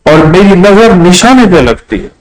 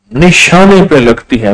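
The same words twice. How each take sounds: First: Said in the usual way. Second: Slow boastful repeat of نشانے پہ لگتی ہے; slowed emphasis. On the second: Retold or imitated. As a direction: stress on نشانے, said slowly. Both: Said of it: "کہا".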